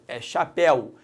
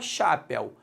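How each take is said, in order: First: The stress falls on the last syllable. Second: The stress falls on the first syllable. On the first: The speaker calls it right. "Não é chapéu, é chapéu" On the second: The speaker calls it wrong. "o el está na sílaba tônica, porque senão seria chapéu"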